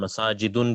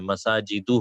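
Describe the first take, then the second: First: The word ends with an added n sound. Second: The word ends on a vowel without n. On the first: The speaker calls it wrong. "मसाजिदुन भी नहीं है" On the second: The speaker calls it right. "मसाजिदु हो"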